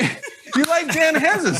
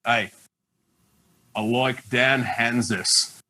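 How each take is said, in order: First: High, loud, laughing "you like Dan Hanzus?"; disbelieving the fan picked his co-host, voice much higher; surprised. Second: Low, slow Australian drawl on "I like Dan Hanzus"; deadpan Aussie bloke naming his favourite, slowly; Aussie accent. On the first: Host retells his surprised reply. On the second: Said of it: "He's doing Aussie accent impersonations". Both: Retold or imitated.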